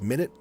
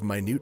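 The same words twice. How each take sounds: First: The stress is on the first syllable. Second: The stress is on the second syllable. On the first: It means a unit of time. The speaker calls it wrong. "I keep reading it as minute" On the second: It means very small. The speaker calls it right. "instead of minute"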